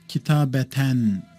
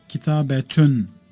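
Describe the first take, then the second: First: The word ends with an 'an' sound. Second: The word ends with an 'un' sound. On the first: The noun is read in the accusative case. The speaker calls it wrong. "kitabeten demem" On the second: The noun is read in the nominative case. The speaker calls it right. "merfu şekliyle not ettireceğim"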